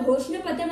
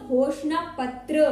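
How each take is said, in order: First: The word is said quickly and carelessly. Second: The word is said slowly and carefully. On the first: The speaker calls it wrong. "ऐसे नहीं" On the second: The speaker calls it right. "संभाल के बोलिएगा, घोषणा पत्र ऐसे"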